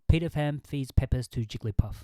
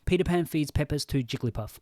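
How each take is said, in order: First: The P sounds pop, with no windscreen on. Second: The P sounds are softened by a foam windscreen. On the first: "Are you getting a lot of pop? I think you are" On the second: "You can put this on"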